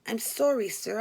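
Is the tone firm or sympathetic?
firm. It is said in a firm, less seductive tone. "I became less seductive and in a firm voice said"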